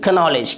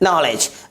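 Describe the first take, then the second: First: A K sound is pronounced before the N. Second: The word starts directly with the N sound. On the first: The speaker calls it wrong. "ना कि कनॉलेज" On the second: The speaker calls it right. "क्या पढ़ेंगे, नॉलेज"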